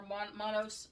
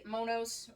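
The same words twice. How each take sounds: First: Monos with a short first O, MAH-nohs; first vowel of Monos like "mon" in "monster"; alternative pronunciation. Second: Monos with a long first O, MOH-nohs; first vowel of Monos like "moan". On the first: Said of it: "I don't know how to pronounce it". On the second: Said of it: "that's a long O". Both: Shown as a demonstration.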